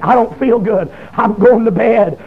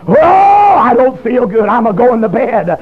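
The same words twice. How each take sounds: First: Said in the usual way. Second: Long drawn-out "Oh", then slow, full-voiced wail; preacher's wailing cry. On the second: Convicted sinner wants off the phone, told in a preacher's drawn-out cry. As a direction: belt it out slowly like a revival preacher.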